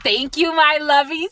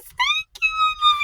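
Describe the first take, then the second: First: High, excited thank-you. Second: Very high, squeaky thank-you; delighted squeal. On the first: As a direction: gush thanks to your followers, pitched up. Thanking viewers, then squealing it. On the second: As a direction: squeal it at the top of your pitch. Same thanks repeated as squeal. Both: Real, not acted.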